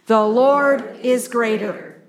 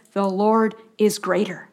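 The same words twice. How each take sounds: First: Slow and firm, leaning on "Lord"; slow unison recitation. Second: Said in the usual way. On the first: Shown as a demonstration. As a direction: spell it out slowly so the listeners can join in. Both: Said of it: "Say it with me".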